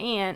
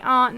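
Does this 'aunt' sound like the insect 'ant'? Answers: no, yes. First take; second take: yes; no. First: The word sounds like the insect 'ant'. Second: The word does not sound like 'ant'. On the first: This is how others say it, not the speaker. The speaker calls it wrong. "not aunt. ... I'm not an insect" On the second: This is how people from the north say it. The speaker calls it right. "we say aunt"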